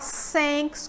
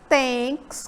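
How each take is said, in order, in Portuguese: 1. Começa com um som de S sibilante. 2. Começa com um som de T simples. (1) "Você também não fala thanks como se fosse um S" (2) "você não fala thanks como som de T"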